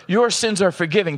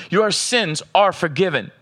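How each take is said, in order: First: Said in the usual way. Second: "Your sins are forgiven" slowed, each word weighed; slow emphatic. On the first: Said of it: "Catch this. Let him tell you". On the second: Shown as a demonstration. Pastor lets Jesus' "Your sins are forgiven" land, slow and weighty. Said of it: "Let him tell you".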